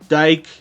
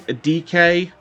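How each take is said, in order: First: The name is said as one single syllable. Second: The name is said as two separate letter sounds. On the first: The speaker has been saying the name this way. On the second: Other people say the name this way. "apparently they say his name by D K"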